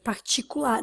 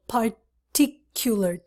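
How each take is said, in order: First: It is said with a Portuguese-style pronunciation. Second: It is said with an English pronunciation. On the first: The speaker calls it wrong. "that's not the pronunciation in English. Particular, no" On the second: The speaker calls it right. "particular, T T T"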